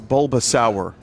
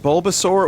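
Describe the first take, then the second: First: The last syllable rhymes with 'sour'. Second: The last syllable rhymes with 'sore'.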